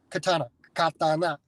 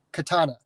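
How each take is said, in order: First: Katana, katana said ka-ta-na, each syllable even and clear; Japanese-style katana. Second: Said in the usual way. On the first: Shown as a demonstration. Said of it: "Japanese syllabic structure is consonant, vowel". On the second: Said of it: "a word like katana".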